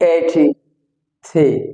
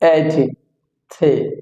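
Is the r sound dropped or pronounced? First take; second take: dropped; dropped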